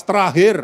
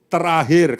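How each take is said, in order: First: Louder, said as a cue for everyone; louder call to say it together. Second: Said in the usual way. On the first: Shown as a demonstration. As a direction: say it out loud with everyone. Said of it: "Yang keras". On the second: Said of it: "katakan bersama".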